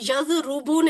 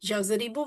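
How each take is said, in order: First: The second vowel is 'u'. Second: The second vowel is 'i'. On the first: The speaker calls it wrong. "यजरुबू नहीं है" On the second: The speaker calls it right. "यजरिबू बन गया"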